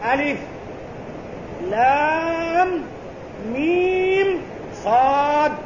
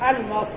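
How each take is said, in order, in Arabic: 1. يُنطق كل حرف باسمه الكامل. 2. تُقرأ الحروف متصلة كأنها كلمة واحدة. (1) "وإنما القراءة بسم الله الرحمن الرحيم ألف لام ميم صاد" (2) "ليس بألمص"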